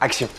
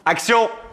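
First: The word is said softly. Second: The word is said loudly.

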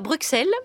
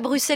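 First: The middle sound is a ks. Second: The middle sound is a plain s. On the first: The speaker calls it wrong. "et non pas Bruxelles" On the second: The speaker calls it right. "à Bruxelles"

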